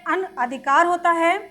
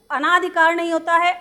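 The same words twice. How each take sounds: First: अनअधिकार with a short अ after अन; अनअधिकार, short अ, no long आ; correct form shown. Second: अनाधिकार with a long आ after अन; wrong form shown. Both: Shown as a demonstration.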